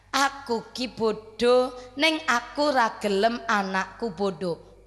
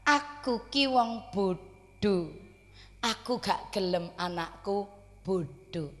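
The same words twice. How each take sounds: First: Very slow, deliberate humble words; lightly voiced humble mother, drawn out; quoting the mother. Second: Slow, soft humble mother's words; lightly voiced humble mother, slow; quoting the mother. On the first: (mengutip ibu dengan pelan dan khidmat) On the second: (suara ibu sederhana yang pelan dan lirih) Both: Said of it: "jawabannya mengeten".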